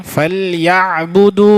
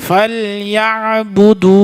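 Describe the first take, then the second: The two takes are said the same way.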